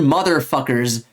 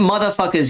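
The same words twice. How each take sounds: First: The final R sound is clearly pronounced. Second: The final R sound is dropped and slurred. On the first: The speaker calls it right. "we say our fuckers with a hard R" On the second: The speaker calls it wrong. "I do not slur my profanities"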